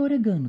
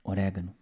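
First: "orégano" dito "oregâno", tônica no GA; acento deslocado. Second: "Orégano" com tônica no RÉ, baixo; pronúncia correta. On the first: Retold or imitated. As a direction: repita "orégano" com a tônica errada, no GA. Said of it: "Alguns alunos não entendem". (aluno confuso dizendo "orégano" como "oregâno") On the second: Shown as a demonstration. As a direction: corrija em voz baixa: "Orégano", forte no RÉ. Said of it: "eu quis falar orégano". ("Orégano" proparoxítono, vogal aberta no RÉ)

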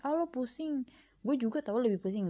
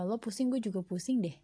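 First: Higher-pitched mock one-upmanship; one-upping comparison. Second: Said in the usual way. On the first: Podcaster mimics comparing troubles with a friend, mock one-upping. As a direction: top their complaint with your own, pitched up at the start. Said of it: "bukan membandingkan kayak". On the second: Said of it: "bukan membandingkan".

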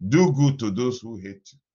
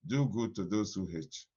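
First: Much louder, called out to the congregation; booming proclamation. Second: Said in the usual way. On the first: Acted. Pastor charging the congregation, booming proclamation. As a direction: proclaim it like a pulpit command. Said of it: "preacher proclaims the command". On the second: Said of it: "repeated quietly after the shout".

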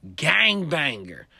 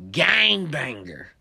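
First: Loud slow tough declaration; slow menacing claim. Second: Loud slow tough declaration; slow menacing repeat. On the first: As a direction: state it as a threat. Gangbanger announces himself. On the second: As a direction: repeat his threat with weight. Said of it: "That's what he told me". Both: Retold or imitated.

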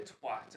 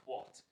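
First: "twat" with the vowel of "hat"; American pronunciation of twat. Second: "twat" with the vowel of "hot"; pronunciation like hot. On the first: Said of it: "every time we've had an American say". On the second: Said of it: "it always comes out as twat". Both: Shown as a demonstration.

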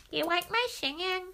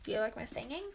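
First: Higher, slurred comic repeat; put-on silly voice. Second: Said in the usual way. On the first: Fishing for praise on the singing, silly voice.

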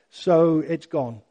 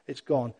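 First: Stretched out slowly, each word settling; slow and final. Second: Soft echo. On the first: Preacher telling the congregation his records are gone, slow and final. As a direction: let it land slowly as a final letting go. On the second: Preacher echoing that his records are gone, lower and softer. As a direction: lower and softer, dropping away. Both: Real, not acted.

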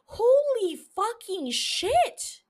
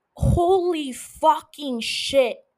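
First: Slow, stretched and higher, rising in awe; higher awed exclamation. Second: Slow, drawn-out, louder awed exclamation. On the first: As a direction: climb up in giddy disbelief. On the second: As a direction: let the amazement spill out slowly. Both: Real, not acted. Raving about loved show.

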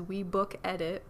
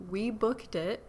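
First: "Book Edit" with a clear extra syllable, ed-it; misreading it as "Book Edit", two separate words; misread podcast name. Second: Said in the usual way. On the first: Shown as a demonstration. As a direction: say "Edit" as its own word after "Book". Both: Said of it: "which always reads as".

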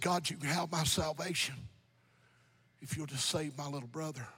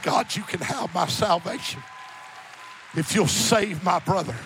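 First: Low, hushed plea fading very soft; subdued, tearful retold prayer. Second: Firm, projected quotation of a prayer; emphatic pulpit retelling, full-voiced; preached prayer. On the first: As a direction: softly imitate a crying man praying. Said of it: "He's crying". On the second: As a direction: declare the plea to the congregation. Same prayer repeated in preaching voice.

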